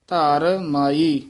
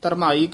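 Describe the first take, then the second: First: It is said as two separate words. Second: It is run together as one word. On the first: The speaker calls it right. "ਵੱਖਰਾ ਬੋਲਣਾ ਹੈ" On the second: The speaker calls it wrong. "ਕਿਤੇ ਇਕੱਠਾ ਨਹੀਂ ਕਹਿ ਦੇਣਾ"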